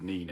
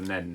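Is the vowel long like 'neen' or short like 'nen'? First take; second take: long; short. First: The vowel is long, like 'neen'. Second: The vowel is short, like 'nen'. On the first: The speaker calls it wrong. "I can't pronounce the word "neen" anymore" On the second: The speaker calls it right. "I've got to start calling it the Nen now"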